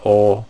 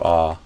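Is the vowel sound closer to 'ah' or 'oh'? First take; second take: oh; ah. First: The vowel is rounded, like 'oh'. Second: The vowel is open and unrounded, like 'ah'. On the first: The speaker calls it wrong. "instead of a oh" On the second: The speaker calls it right. "I would do ah"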